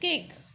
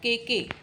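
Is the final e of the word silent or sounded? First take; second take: silent; sounded. First: The final e is silent, making one syllable. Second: The final e is sounded as an extra syllable. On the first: The speaker calls it right. "E is silent in this case" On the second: The speaker calls it wrong. "It's not cake"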